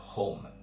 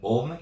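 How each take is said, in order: First: The word begins with an audible h sound. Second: The word begins directly with the vowel. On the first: "instead of home" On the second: "home instead of"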